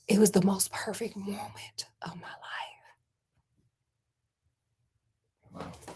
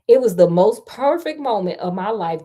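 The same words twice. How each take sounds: First: It is said quietly. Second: It is said at normal loudness.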